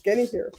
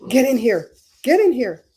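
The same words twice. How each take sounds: First: Said in the usual way. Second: Loud summoning call, punched on get; calling out get in here. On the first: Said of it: "somebody else says that too". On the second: Retold or imitated. Streamer calling viewers in with a loud summons. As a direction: call them in sharply, raised voice. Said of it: "I'm gonna be like".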